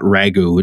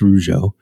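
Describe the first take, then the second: First: The name ends with a hard 'goo' sound. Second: The name ends with a soft 'zho' sound. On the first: The speaker calls it wrong. "it's not Ragu" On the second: The speaker calls it right. "it's Rougeau"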